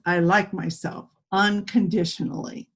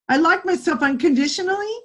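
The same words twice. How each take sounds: First: The voice falls at the end, like a statement. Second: The voice rises at the end, like a question. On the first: The speaker sounds confident in the statement. The speaker calls it right. "with good posture and a deep voice" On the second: The speaker sounds unsure of the statement. The speaker calls it wrong. "That's a question. There's no confidence in that"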